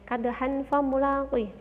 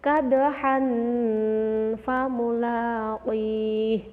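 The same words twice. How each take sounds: First: The nasal sound before fa is cut short. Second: The nasal sound before fa is held long. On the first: The speaker calls it wrong. "nggak boleh" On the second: The speaker calls it right. "harus dibaca samar, agak lama"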